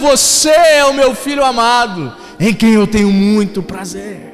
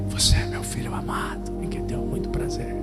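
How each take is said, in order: First: It is spoken loudly and thunderously. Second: It is spoken softly and quietly.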